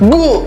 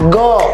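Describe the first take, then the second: First: The vowel is an 'oo' sound. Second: The vowel is an 'oh' sound. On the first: The speaker calls it wrong. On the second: The speaker calls it right.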